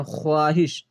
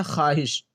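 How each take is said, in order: First: ख्वाहिश with the "w" sounded; spelling pronunciation. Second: ख्वाहिश as "khaahish", no "w"; ख्वाहिश with a silent vao; as read aloud. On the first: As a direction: say ख्वाहिश as "kho-aahish". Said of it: "जैसे ख्वाहिश लिखते हैं". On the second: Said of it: "लेकिन पढ़ते क्या हैं?". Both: Shown as a demonstration.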